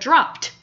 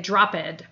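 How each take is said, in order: First: The ending is said as a T sound. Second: The ending is said as an extra syllable. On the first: The speaker calls it right. "instead of dropped" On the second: The speaker calls it wrong. "they would say dropped or something"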